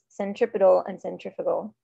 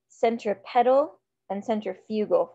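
First: The words are pronounced in a natural, quick way. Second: The words are pronounced in an exaggerated, distinct way. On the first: This is the usual pronunciation of the terms. The speaker calls it right. "It's centripetal and centrifugal" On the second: The two terms are made easy to tell apart. The speaker calls it wrong. "that's not actually how you say them"

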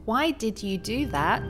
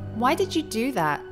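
First: 'Did you' is said as two full words. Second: 'Did you' is reduced to one short syllable. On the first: "He says" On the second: "did you becomes do"

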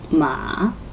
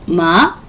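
First: The pitch dips down then rises. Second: The pitch rises upward. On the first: "삼성 마" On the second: "이성 마 올려줍니다"

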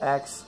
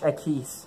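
First: The title is said with English pronunciation. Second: The title is said with Spanish pronunciation.

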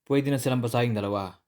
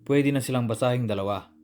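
Both takes have the same delivery.

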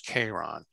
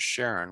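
First: The name begins with a k sound. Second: The name begins with an sh sound. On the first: This is how the name was said in Greek. The speaker calls it right. "the actual Greek way of saying Charon was Charon" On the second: This is the usual modern way of saying the moon's name. The speaker calls it wrong. "the way I'm pronouncing it"

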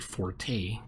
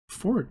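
First: The word has two syllables, ending in 'tay'. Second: The word has one syllable, like 'fort'. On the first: The speaker calls it wrong. "Americans say forte because they don't know how to pronounce" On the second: The speaker calls it right. "but fort"

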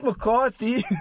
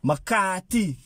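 First: It is said the standard way, not like 'McCatti'. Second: It is said locally, sounding like 'McCatti'. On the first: This is the usual way outsiders say it. "Not McCarthy" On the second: This is how people in the neighbourhood say it. "I really thought this man's surname was spelled M-C-A-T-T-I"

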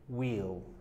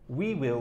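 First: The words are merged into one syllable. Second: Both words are said in full. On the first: "We will becomes we'll" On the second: "We will becomes we'll"

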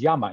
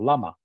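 First: The word begins with a Y sound. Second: The word begins with an L sound. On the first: "we say the double L is Y. So it's llama" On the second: "instead of llama"

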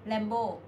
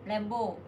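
Both takes have the same delivery.

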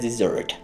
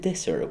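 First: The stress is on the first syllable. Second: The stress is on the second syllable. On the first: A dry sandy place. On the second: To abandon someone.

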